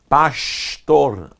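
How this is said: The s before t sounds like sh. This is how it is said in Rio de Janeiro. "se vai no Rio de Janeiro, o som do S vira sh"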